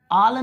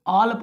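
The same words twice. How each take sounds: First: All said with open aa, like "aal"; wrong vowel demo. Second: All with rounded aw, "awl"; correct vowel demo. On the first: Teacher saying how not to read it, mispronounced. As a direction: show all misread, unrounded. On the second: Teacher giving the correct reading, carefully pronounced. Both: Shown as a demonstration. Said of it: "all नहीं पढ़ेंगे".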